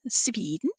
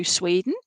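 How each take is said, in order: First: Sweden said as "Sveeden", softer; Swedish-style pronunciation. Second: Said in the usual way. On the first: Shown as a demonstration. Medium greeting a Swedish listener, Sweden pronounced "Sveeden".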